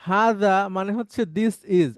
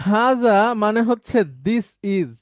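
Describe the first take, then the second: The two takes are said the same way.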